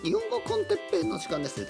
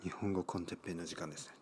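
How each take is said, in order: First: It is said in a put-on childlike voice. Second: It is said in his natural adult voice.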